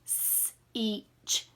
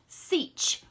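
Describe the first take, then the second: First: "S-each" split into s then each; segmented sounds. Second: "seach" blended smoothly in one go; blended word. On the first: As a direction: sound it apart slowly. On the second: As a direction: push the sounds together. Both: Shown as a demonstration. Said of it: "let's read this".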